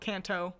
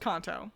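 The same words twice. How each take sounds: First: The first vowel sounds like 'can'. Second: The first vowel sounds like 'con'. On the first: The speaker calls it wrong. "not Kanto" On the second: The speaker calls it right. "I thought it was pronounced Kanto"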